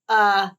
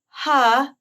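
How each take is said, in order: First: The vowel starts with a hard, forced catch. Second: The vowel starts with audible breath before it.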